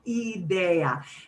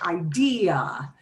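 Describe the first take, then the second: First: It is said with Spanish vowel sounds. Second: It is said with English vowel sounds. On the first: "we have to sound it out phonetically" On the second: "We say idea"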